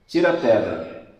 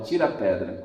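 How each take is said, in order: First: Firm, loud command; commanding order. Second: Repeated order. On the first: Preacher voicing Jesus at the tomb, loud command. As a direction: order them to roll the stone away. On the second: Preacher repeating Jesus' order at the tomb, lower and calmer. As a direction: restate the order calmly and low. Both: Acted. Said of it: "Jesus dá a ordem".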